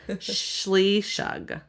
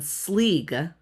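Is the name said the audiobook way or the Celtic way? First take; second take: Celtic; audiobook. First: The name is said with two syllables, sh sounds. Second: The name is said as one short syllable. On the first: This is the traditional Celtic pronunciation. "Now in Celtic, it's Shleeshug" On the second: This is how the audiobook says it. "graphic audio says like it's"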